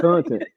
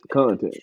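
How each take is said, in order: First: Content said high and bright at the top. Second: Content dropped low and settled. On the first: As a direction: toss content up high like a punchline. Cohost echoes word twice. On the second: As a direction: land content low and dry. Second take lower. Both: Real, not acted.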